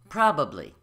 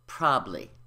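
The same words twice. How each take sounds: First: Every syllable is pronounced. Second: One syllable is left out. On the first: The speaker calls it right. "But the word is probably" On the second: The speaker calls it wrong. "we reduce the B syllable and it becomes probably"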